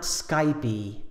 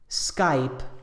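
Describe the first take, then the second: First: The word is two syllables ending in an 'ee' vowel. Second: The word is one syllable with no vowel at the end. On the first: The speaker calls it wrong. "not Skypey" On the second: The speaker calls it right. "Skype is only one syllable. There's no E sound on the end"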